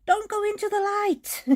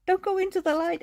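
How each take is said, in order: First: High spooky movie quote voice; high mock-dramatic warning; movie character quote. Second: High mock-spooky quote; high teasing warning; joking movie quote. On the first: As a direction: quote the cartoon friend, pitched way up. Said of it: "the one friend says". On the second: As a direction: play the line as a joke, pitched way up. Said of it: "it's just like a joke".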